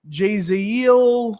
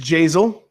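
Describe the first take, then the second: First: The name has three syllables, ending in -iel. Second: The name has two syllables, rhyming with basil. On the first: The speaker calls it wrong. "What were they calling his his first name? Like Jaziel" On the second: The speaker calls it right. "It's Jazel. Like basil"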